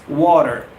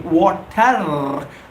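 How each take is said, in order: First: The middle consonant sounds like a soft D. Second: The middle consonant is a clear T sound. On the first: The speaker calls it right. "W A D E R ... it's the right pronunciation" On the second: The speaker calls it wrong. "most of us get wrong. We say water"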